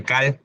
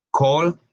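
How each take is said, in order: First: "cal" with an open Spanish a; Spanish misreading. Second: "call" said as "col", higher in pitch; English "call" with an aw sound; correct English vowel. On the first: Retold or imitated. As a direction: read "cal" as spelled, as in Spanish. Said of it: "hay gente que dice cal". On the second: Shown as a demonstration. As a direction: round the a of "call" into an o. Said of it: "se convierte en O L".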